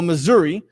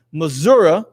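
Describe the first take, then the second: First: Missouri ending in "ee"; Missouri with a clear final "ee" sound; alternate pronunciation. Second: Missouri ending in "uh"; Missouri with a final schwa, like "Mizzoura"; regional pronunciation. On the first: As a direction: say Missouri as "muh-ZUR-ee". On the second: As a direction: say Missouri as "muh-ZUR-uh". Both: Shown as a demonstration. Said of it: "depending on how you wanna say it".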